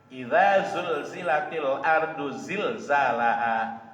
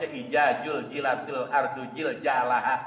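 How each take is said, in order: First: The consonants are pronounced with a z sound. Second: The consonants are pronounced with a j sound. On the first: The speaker calls it right. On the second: The speaker calls it wrong.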